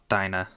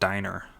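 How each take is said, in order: First: The final r sound is dropped entirely. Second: The final r sound is clearly pronounced. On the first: "not Dinah" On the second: "in American English, at least, that would be pronounced diner"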